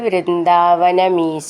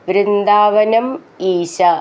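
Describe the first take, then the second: First: The two words are joined into one word. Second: The two words are said as separate words.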